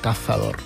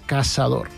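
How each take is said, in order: First: The middle consonant sounds like a th. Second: The middle consonant sounds like an s. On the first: This is how it is said in Spain. "que cazador en el castellà d'Espanya" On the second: This is how the speaker now says it after years abroad. "ja cazador seria més caçador"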